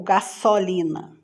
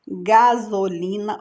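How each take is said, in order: First: "gasolina" with a hissed S in place of Z; S sound. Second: Said in the usual way. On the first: Shown as a demonstration. Teacher offering the wrong option, "gasolina" with voiceless S. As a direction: say "gasolina" as ga-SSO-li-na. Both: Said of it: "Som de Z".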